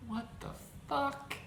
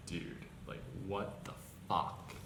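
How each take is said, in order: First: "fuck" pitched way up, a squeaking rise of disbelief; incredulous squeak. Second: Hushed, breathy what the fuck in real shock; whispered disbelief. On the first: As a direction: let "What the fuck?" climb high in outrage. Incredulous at brand called racist. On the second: Baffled by the racism claim, whispering in disbelief. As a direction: say "what the fuck" under your breath, stunned. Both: Real, not acted.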